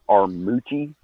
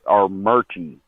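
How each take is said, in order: First: The middle syllable has no R sound. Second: The middle syllable has an added R sound. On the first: This is how the name is spelled. "if you say it how it's spelled" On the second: This is how locals say the name. "everyone in the area calls it Armurchie"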